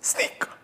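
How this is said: The word is whispered softly.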